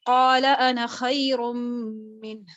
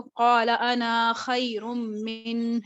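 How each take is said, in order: First: Slow قال انا خیر منہ with the alif of انا dropped, joined smoothly; correct recitation. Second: Slow قال انا خیر منہ with the alif of انا wrongly lengthened; wrong recitation. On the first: Teacher showing students the correct reading of قال انا خیر منہ, slow. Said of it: "بلکہ میں نے کیسے پڑھا؟". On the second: Teacher showing students the wrong reading of قال انا خیر منہ, slow. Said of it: "میں نے اس کو ایسے نہیں پڑھا". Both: Shown as a demonstration.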